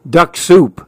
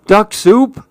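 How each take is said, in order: First: Higher wolf voice, falling statement; storybook wolf. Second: High, rising startled question; alarmed question. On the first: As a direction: announce it as the scheming wolf. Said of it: "said the wolf". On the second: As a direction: echo it in alarmed disbelief. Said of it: "Susan gulped". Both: A narrator's reading.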